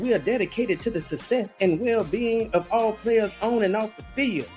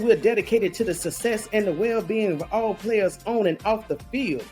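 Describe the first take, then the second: First: It is read with strong, heavy emphasis. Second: It is read plainly without extra emphasis.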